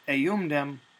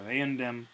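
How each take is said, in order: First: An M sound comes before the D. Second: An N sound comes before the D. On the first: "instead of eumdem" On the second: "that M has shifted when followed by a D to an N"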